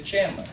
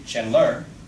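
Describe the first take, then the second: First: The stress is on the first syllable. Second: The stress is on the second syllable. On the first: The speaker calls it right. "The first syllable is stressed" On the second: The speaker calls it wrong. "We don't say Chandler"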